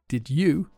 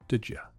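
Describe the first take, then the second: First: Both words are said in their full forms. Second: Both words are said in weak, reduced forms.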